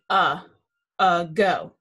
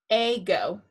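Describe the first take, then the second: First: The first vowel is a short 'uh' sound. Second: The first vowel is a long 'ay' sound. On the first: The speaker calls it right. "This A is going to say ago" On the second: The speaker calls it wrong. "If we put macrons above both, it would say ago. That's not right"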